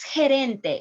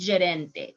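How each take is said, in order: First: The first consonant sounds like Spanish j. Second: The first consonant is a different, non-j sound. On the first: The speaker calls it right. "So it's gerente" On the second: The speaker calls it wrong. "it's not gerente"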